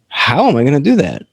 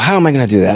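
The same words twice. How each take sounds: First: It sounds hopeful and curious. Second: It sounds defeated and doubtful.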